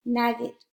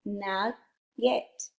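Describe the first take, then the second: First: Said in the usual way. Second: "Nugget" split slowly into nug, pause, get; syllable by syllable. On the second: Shown as a demonstration. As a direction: say "Nugget" as two separate syllables. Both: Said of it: "Now blend the whole word".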